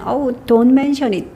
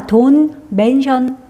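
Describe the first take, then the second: First: Said in the usual way. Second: Slow reading. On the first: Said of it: "너희 thank you 그러면". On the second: Shown as a demonstration. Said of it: "그거에 대해서 말하지 마".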